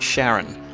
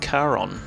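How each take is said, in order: First: The name begins with a soft sh sound. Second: The name begins with a hard k sound. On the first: This is how it was said in childhood. "when I was a young child, I always pronounced it Sharon" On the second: This follows the Greek origin of the name. "given that it's from the Greek, I'm wondering if it's supposed to be Charon"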